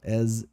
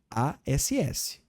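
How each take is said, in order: First: The word ends with a buzzing z sound. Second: The word ends with a hissing s sound. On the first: It is the comparison word. The speaker calls it right. "Faz um som de zezinho no final" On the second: It is a rude word for bottom. The speaker calls it wrong. "se você falar s, você está falando ass"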